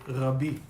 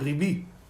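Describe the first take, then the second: First: The first vowel sounds like 'ah'. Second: The first vowel sounds like 'ee'. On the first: "you don't say Rabbi" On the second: "you say Ribi"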